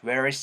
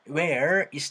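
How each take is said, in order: First: The two words run smoothly together as one. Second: The two words are said separately, without linking. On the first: The speaker calls it right. "사운드를 자연스럽게 연결해 줄 겁니다" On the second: The speaker calls it wrong. "이렇게 얘기하는 사람들은 많이 없고요"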